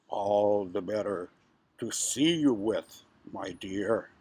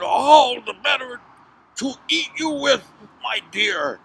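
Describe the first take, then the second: First: Low, slow, sly wolf; wolf posing as Grandma. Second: High, loud, menacing wolf; unmasked big bad wolf. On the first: Acted. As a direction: draw it out low, feigning a granny's calm. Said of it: "pretending to be Grandma". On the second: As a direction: pounce on the words, loud and raised. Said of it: "threw off the robe".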